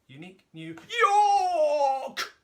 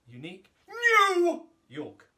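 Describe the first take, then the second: First: The word York is exaggerated. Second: The word new is exaggerated.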